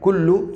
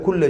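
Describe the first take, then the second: First: The word ends with a 'u' vowel. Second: The word ends with an 'a' vowel. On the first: The full meaning and message would change. The speaker calls it wrong. "لام پر پیش ممکن نہیں ہے" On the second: Everything was created with a measure. The speaker calls it right. "تو کل کی لام پر زبر ہے"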